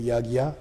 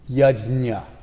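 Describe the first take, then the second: First: The middle cluster is said with a g-y sound. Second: The middle cluster is said with a j sound. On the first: This is the North Indian form. "normally said North India" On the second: This is the South Indian form. "Yajna is probably the most proper way to say it. That's how they say it in South India"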